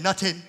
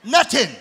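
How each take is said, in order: First: Put-on Nothing said as "nutting" in a light Jamaican accent. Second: Put-on Jamaican accent. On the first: Preacher jokes to church, light Jamaican accent. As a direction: toss off "Nothing" like a Jamaican, laughing. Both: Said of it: "That's how they say it in Jamaica".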